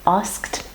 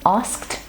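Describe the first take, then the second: First: The full sk consonant cluster is pronounced. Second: The full sk consonant cluster is pronounced.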